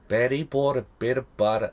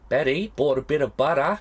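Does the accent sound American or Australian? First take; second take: American; Australian. First: It is said in an American-sounding accent. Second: It is said in an attempted Australian accent. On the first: "No, that sounds more like American" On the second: "do it in an Australian accent"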